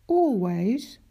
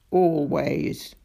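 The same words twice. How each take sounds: First: Put-on higher, rising girlish "Always?"; a small girl asking in disbelief; lightly voiced girl, "Always?" lifted up; Daisy's worried question. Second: Lower, firm creature "Always"; the beast answering heavily; deep monster voice, "Always" settled and final; Ikabog's deep answer. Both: A narrator's reading. Girl asks, monster answers same word.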